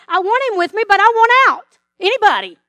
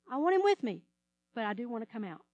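First: Louder, higher, pleading cry to get out; mock desperate plea. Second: Soft, lower, confiding repeat; quiet admission. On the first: Believer crying out to God to escape trouble, loud and desperate. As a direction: beg loudly to be rescued out of it. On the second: Pretend. Believer quietly confessing a wish to escape trouble, soft. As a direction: admit it quietly, almost to yourself.

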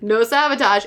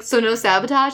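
First: "No sabotage." with a falling end; retold answer. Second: "So no sabotage?" with a rising end; retold question. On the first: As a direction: confirm it, dropping "sabotage" at the end. Retold group answers the question. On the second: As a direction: ask to confirm, lifting "sabotage" at the end. Retold character asks for confirmation.

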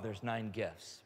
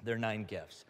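First: Nine slow and low, leaned on; stress on nine. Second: "There are nine gifts" repeated, low and deliberate; stress on nine. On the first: Pastor stressing the count to his listeners, slow and firm. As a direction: say "nine" slowly and firmly. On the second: Pastor repeating the number for the crowd, deliberate. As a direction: land "nine" again, calmly. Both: Real, not acted. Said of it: "you can look up at me".

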